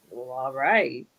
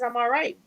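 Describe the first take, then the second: First: Low, flat, dragged all right; deflated all right. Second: Said in the usual way. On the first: Shown as a demonstration. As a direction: mope it out. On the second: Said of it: "But if somebody says".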